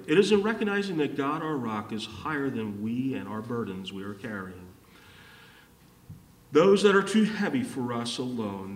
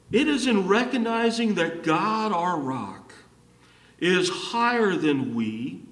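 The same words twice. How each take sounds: First: Quick restatement. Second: Emphatic preaching. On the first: Preacher saying the point this way for the congregation, quick restatement. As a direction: restate it in one flowing, lowering run. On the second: Preacher stating the key point to the congregation, emphatic. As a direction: proclaim it in measured, raised phrases. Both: Real, not acted.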